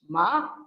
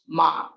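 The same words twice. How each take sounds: First: The pitch rises upward. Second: The pitch is low and grave. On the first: It means mad. "Ma with a rising pitch" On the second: It means horse. "ma with grave pitch"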